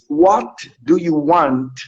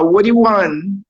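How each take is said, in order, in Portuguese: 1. Cada palavra é dita separadamente e com clareza. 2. As palavras são ditas juntas, formando um fluxo só. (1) "o inglês vai dizer assim" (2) "Então ele vai juntar"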